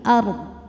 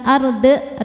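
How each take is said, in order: First: The word ends on a consonant, without a bounce. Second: The word ends with an added 'e' vowel. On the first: The speaker calls it right. "tapi ard" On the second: The speaker calls it wrong. "Jadi bukan arde atau ardo"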